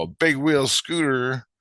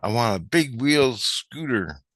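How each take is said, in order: First: Slow, higher retold question; questioning echo. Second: Slow, higher imitated child voice; little kid wishing. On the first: Train maker repeating kid's wish, slow questioning echo. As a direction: echo it slowly, pitched up in doubt. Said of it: "And I go". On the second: Kid naming the wish, slow imitated child voice. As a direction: spell out the wish slowly like a kid. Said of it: "This little kid goes".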